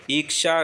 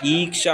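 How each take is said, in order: First: ईक्षा begun with a short "i"; wrong short vowel. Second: ईक्षा begun with a long "ee"; correct long vowel. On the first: Teacher showing the mistake, ईक्षा with short opening i. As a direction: keep the first vowel of ईक्षा brief, "iksha". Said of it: "ईक्षा नहीं होता". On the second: Teacher giving the correction, ईक्षा with long opening ee. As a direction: stretch the opening of ईक्षा to "eek-sha". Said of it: "ईक्षा होता है". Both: Shown as a demonstration.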